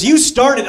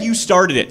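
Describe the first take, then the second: First: You started up high, YOU leaned on; emphatic childish retort. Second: Said in the usual way. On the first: Retold or imitated. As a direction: whine it back at me like a kid. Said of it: "he goes". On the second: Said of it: "And he even said".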